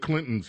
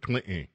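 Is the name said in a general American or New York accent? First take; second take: general American; New York. First: It is said in a general American accent. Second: It is said in a New York accent.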